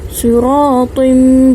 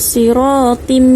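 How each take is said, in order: First: The t sound is pronounced heavy and thick. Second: The t sound is pronounced light and thin. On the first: The speaker calls it right. "Huruf ta ini kita baca dengan tebal" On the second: The speaker calls it wrong. "bukan siratim, itu salah"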